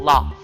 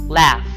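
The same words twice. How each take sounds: First: It is said in a British accent. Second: It is said in an American accent.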